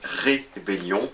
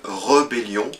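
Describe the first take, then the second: First: The first vowel is a clear 'é' sound. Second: The first vowel is a neutral 'uh' sound. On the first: The speaker calls it right. "Il y a un accent sur le premier E, on devrait parler d'une rébellion" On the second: The speaker calls it wrong. "beaucoup de personnes vont parler d'une rébellion"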